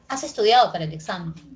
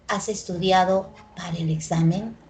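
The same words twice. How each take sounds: First: The pitch falls at the end. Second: The pitch rises at the end. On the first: It is a statement. "Y le cambié el tono, la cambié a descendente" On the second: It is a yes-or-no question. "Este es el único tipo de enunciado que tiene entonación que entonación ascendente"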